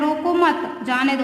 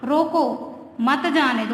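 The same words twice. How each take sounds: First: The pause comes after the second word. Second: The pause comes after the first word. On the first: Do not stop him, let him go. "मतलब उसे मत रोको, जाने दो।" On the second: Stop him, do not let him go. "मतलब उसे जाने"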